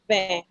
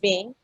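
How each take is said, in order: First: The vowel sounds like a nasal 'eh'. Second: The vowel sounds like English 'in'. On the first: The speaker calls it right. "it's Vin" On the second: The speaker calls it wrong. "That thing you're calling Vin"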